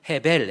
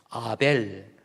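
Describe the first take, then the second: First: The word starts with an audible h sound. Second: The word starts without an h sound. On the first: It means emptiness or vanity. "헤벨 해서 소리를 내는 겁니다" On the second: It is the name Abel. "H가 묵음이잖아요"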